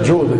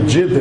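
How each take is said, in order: First: The first vowel is a rounded u. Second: The first vowel is a short i. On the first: The speaker calls it wrong. "نہ یہ لفظ نہ جد ہے نہ جود ہے" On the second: The speaker calls it right. "یہ جد ہے"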